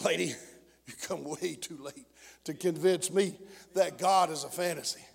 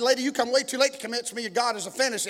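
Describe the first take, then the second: First: Low, very soft and measured reply; hushed retort. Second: Said in the usual way. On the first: Retold or imitated. Hushed retold reply to unbeliever.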